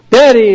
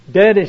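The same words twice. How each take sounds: First: Daddy shouted out high and loud; shouted call. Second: Said in the usual way. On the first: Retold or imitated. Boy shouting at father behind his newspaper, loud and high. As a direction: yell Daddy to break through. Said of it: "he shouted". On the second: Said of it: "said the boy".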